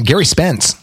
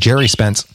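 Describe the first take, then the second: First: The name begins with a hard G sound. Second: The name begins with a soft J sound.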